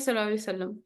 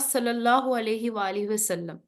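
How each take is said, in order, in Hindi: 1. वाक्यांश तेज़ी से और जल्दी-जल्दी कहा गया है। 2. वाक्यांश धीरे और ध्यान से कहा गया है। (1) "जब हम स्पीड से बात कर रहे होते हैं" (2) "हम पढ़ते हैं"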